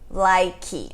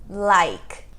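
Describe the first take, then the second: First: An extra vowel is added after the final consonant. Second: The word ends on the consonant with no vowel. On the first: The speaker calls it wrong. "Também não é like" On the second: The speaker calls it right. "mas em inglês é like"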